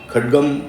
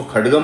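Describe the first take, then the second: First: खड्गम ending on a bare half म, no vowel after it; खड्गम with a halant म; half consonant. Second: खड्गम with the final म sounded fully, a vowel after it; खड्गम with a full final vowel; wrong pronunciation. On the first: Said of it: "आधा बोलना है". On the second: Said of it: "इसको खड्गम नहीं बोलना है". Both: Shown as a demonstration.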